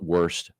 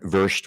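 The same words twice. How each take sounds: First: It is said with an American English pronunciation. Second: It is said with a German pronunciation. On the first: This is how the locals say it. "I know they call it" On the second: This is how it is said in German. "would be the German pronunciation"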